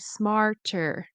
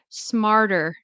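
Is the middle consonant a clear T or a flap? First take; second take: clear T; flap. First: The middle T is a clear, careful T. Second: The middle T is a quick D-like flap. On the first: "like very carefully" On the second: "I'm going to say it with the flap T, which is like a fast D"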